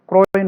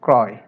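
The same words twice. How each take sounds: First: ক্রয় mispronounced as "kroy" with rounded o; wrong o vowel. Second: ক্রয় as "krɔy", open ɔ; correct open vowel. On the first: Teacher rejecting a form for students, o-vowel ক্রয়. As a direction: say ক্রয় with a closed o. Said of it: "নয়". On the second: Teacher correcting for students, open-vowel ক্রয়. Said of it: "ক্রয় নয়". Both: Shown as a demonstration.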